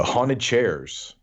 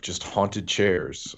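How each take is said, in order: First: Slow emphasis. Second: Haunted said very slowly, each syllable drawn out; slow, deadpan. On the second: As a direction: let "haunted chairs" hang slow and dry. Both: Shown as a demonstration. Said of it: "repeated for emphasis".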